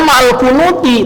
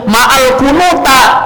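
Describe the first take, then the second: First: The last word ends in an 'i' vowel. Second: The last word ends in an 'a' vowel. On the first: The speaker calls it right. "harusnya ma'al kunuti" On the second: The speaker calls it wrong. "tapi dibacanya ma'al kunuta"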